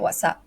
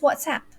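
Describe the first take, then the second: First: The word has a Malaysian-style pronunciation. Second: The word has the standard pronunciation. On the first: "we do hear some Malaysians say" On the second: "the correct way is WhatsApp"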